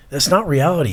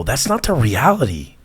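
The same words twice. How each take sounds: First: "not" punched, whole line higher; emphatic repeat, "not" hit higher; stress on not. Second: Said in the usual way. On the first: Real, not acted. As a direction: lean hard on "not" in "That's not reality". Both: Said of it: "repeats for emphasis".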